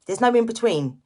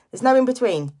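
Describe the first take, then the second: No difference in how they are said.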